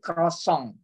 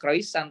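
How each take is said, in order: First: The final vowel is nasal, like 'ong'. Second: The final vowel is plain, not nasal. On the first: The speaker calls it right. "tapi croissant. Jadi ong semua gitu" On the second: The speaker calls it wrong. "enggak croissant"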